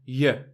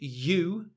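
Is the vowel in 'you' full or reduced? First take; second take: reduced; full. First: The vowel is reduced to a quick schwa. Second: The vowel is full and slow, with no schwa. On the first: "native speakers are always making these shortcuts" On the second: "if we say it slowly, you, there's no schwa"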